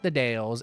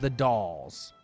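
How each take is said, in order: First: The vowel rhymes with 'day'. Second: The vowel sounds like 'doll'. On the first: The speaker calls it wrong. "It is not the Dales" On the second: The speaker calls it right. "it is the Dolls"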